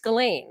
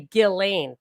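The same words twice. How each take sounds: First: The name begins softly and rhymes with Elaine. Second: The name begins with a hard G sound. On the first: The speaker calls it right. "it's Ghislaine, like, it's like Elaine" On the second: The speaker calls it wrong. "You wouldn't say Ghislaine"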